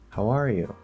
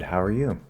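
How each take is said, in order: First: The stress falls on the word are. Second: The stress falls on the word you. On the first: "R is the natural stressed word here" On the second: "I'm not stressing R... Now I'm stressing the U"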